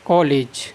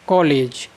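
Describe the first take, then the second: Both takes have the same delivery.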